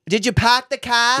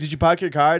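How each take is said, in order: First: It has a heavy, exaggerated Boston accent. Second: It has a mild, casual Boston accent. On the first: This is an overdone, stereotyped way of talking. The speaker calls it wrong. "I'm not like, did you park the car?" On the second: This is how a local really talks. The speaker calls it right. "that's how I would say it"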